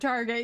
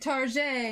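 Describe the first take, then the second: First: It is said in an ordinary, everyday way. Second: It is said in a fancy, French-like way. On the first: The speaker is not trying to sound classy. "instead of" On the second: The speaker wants to sound classy. "when we want to sound posh, we say"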